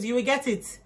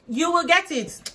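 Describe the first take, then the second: First: Said in the usual way. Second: "You will get it" cried out high, loud and slow with weight on "get"; loud, preaching. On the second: Shown as a demonstration. Promising viewers a good marriage, loud preaching. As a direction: belt "get" like a pastor's promise.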